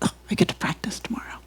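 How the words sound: It sounds eager and excited.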